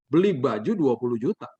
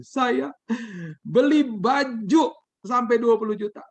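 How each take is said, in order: First: Mildly incredulous repeat in a normal register; understated astonished questioning; shocked echo. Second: Imitating a high, slow wail; acted tearful blurting, pitched way up; tearful confession. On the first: Retold or imitated. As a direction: echo it back in mild disbelief. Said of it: "saya makin kaget". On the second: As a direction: draw it out high and loud, as if crying. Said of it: "dengan tangisan dia bilang gini".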